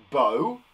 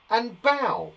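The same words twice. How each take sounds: First: "bow" said to rhyme with go; "bow", long o sound like a ribbon bow; teacher contrasting "bow" with an o sound. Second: "bow" said to rhyme with cow; "bow" with an ow sound, like bowing to an audience; teacher contrasting "bow" with an ow sound; bow as in bending. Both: Shown as a demonstration. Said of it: "but we say it differently".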